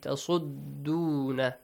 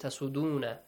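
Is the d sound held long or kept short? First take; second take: long; short. First: The d sound is doubled and held longer. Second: The d sound is single and short. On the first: The speaker calls it right. "And also the dal has a tashdeed" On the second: The speaker calls it wrong. "Do not read it"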